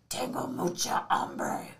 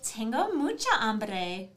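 First: It is said in a Batman voice. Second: It is said in a Valley Girl voice.

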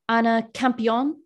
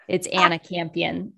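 First: The A sounds are soft, French-style vowels. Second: The A sounds are hard, Midwestern-style vowels. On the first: This is how someone else mispronounced the name. The speaker calls it wrong. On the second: This is the Americanized version of the name. The speaker calls it right.

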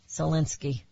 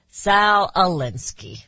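First: The two parts are slid together into one word. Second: The two parts are said as separate words. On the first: The speaker calls it wrong. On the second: The speaker calls it right.

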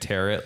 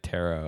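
First: The word ends with a t sound. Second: The word ends without a t sound. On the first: The speaker calls it wrong. "like carrot" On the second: The speaker calls it right. "the T is silent at the end"

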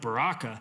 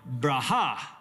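First: The word is said with an English pronunciation. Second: The word is said with a Hebrew pronunciation. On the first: The speaker calls it wrong. "That's not how you say that word" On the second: The speaker calls it right. "How you say that word in Hebrew is Braha"

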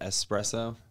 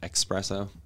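First: The word begins with a plain s sound. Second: The word begins with a ks sound. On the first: The speaker calls it right. "you said espresso" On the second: The speaker calls it wrong. "so many people say it with an X"

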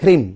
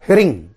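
First: The word ends with closed lips on m. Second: The word ends open, from the throat, ng. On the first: The speaker calls it wrong. "जैसे कई लोग बोलते हैं ह्रिम" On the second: The speaker calls it right. "गले से बोलेंगे ह्रिंग। ओंठ को नहीं बंद करना है।"

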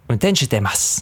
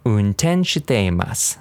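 First: It is said at a faster pace. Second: It is said at a slow, careful pace.

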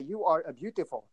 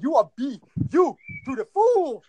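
First: It is said flatly, without force. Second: It is said with strong force. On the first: The words are only recited, not felt. The speaker calls it wrong. "If I say it like this" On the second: The words are meant to reach the heart. The speaker calls it right. "But I say you are beautiful"

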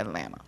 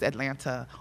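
First: The second T is dropped. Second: The second T is clearly pronounced.

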